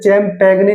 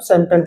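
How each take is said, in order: First: It starts with ch and sounds the g. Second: It starts with s and the g is silent. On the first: The speaker calls it wrong. "आप इसको ऐसे चैम्पैगने नहीं पढ़ते" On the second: The speaker calls it right. "इसको क्या पढ़ेंगे हम, सैम्पेन पढ़ेंगे"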